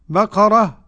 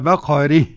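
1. الحركة قبل الحرف الأخير: تبقى مفتوحة. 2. الحركة قبل الحرف الأخير: تميل نحو الكسر. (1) "الفتح" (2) "أو الإمالة"

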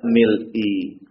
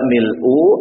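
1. Kata itu diakhiri dengan vokal i. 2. Kata itu diakhiri dengan vokal u. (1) "atau tidak mil'i" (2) "Tidak mil'u"

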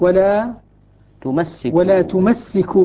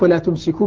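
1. صوت السين في الفعل مشدَّد. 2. صوت السين في الفعل مفرد. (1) "يقرأها بالتشديد من التمسك" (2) "والباقون بالتخفيف"

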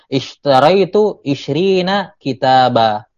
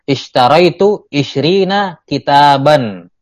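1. Kata terakhir diakhiri vokal biasa. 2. Kata terakhir diakhiri bunyi n. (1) "Tapi kalau saya waqaf, saya katakan" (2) "kitaban akan kelihatan nun sukunnya kalau terlafazkan dan tidak waqaf"

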